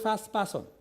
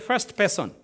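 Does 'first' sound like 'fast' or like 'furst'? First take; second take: fast; furst. First: The word 'first' sounds like 'fast'. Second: The word 'first' sounds like 'furst'. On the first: The speaker is from Uganda. "Ugandans would say fast. They would say first person" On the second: The speaker is from Zambia. "In Zambia, we say first person"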